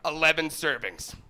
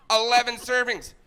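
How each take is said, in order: First: Said in the usual way. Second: Higher, louder disbelief; incredulous outburst. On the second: Acted. Comic astonished by the lasagna box, loud incredulous repeat. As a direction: burst out in mock outrage at it.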